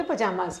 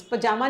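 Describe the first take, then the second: First: "पजामाज" with a final z, lower and softer; plural ending sounded. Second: Said in the usual way. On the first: Shown as a demonstration. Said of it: "पजामा नहीं बोलते". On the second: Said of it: "नहीं बोलते".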